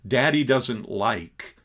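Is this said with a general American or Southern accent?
general American. It is said in a plain general American accent. "Instead of"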